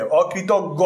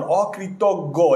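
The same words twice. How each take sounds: First: অকৃতজ্ঞ repeated slowly as the corrected form; corrected pronunciation. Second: অকৃতজ্ঞ drawn out very slowly, syllable by syllable; pronunciation demo. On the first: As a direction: give the fixed অকৃতজ্ঞ, slow and clear. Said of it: "এখানে একটু ভুল আছে". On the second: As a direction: spell out অকৃতজ্ঞ slowly for the class. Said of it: "এটা হচ্ছে উচ্চারণ". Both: Shown as a demonstration.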